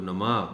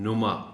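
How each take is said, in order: First: The first syllable has an 'a' vowel. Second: The first syllable has a 'u' vowel. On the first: The speaker calls it wrong. "ज़बर इस्तेमाल कर जाते हैं" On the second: The speaker calls it right. "नुमा के नून पर पेश है"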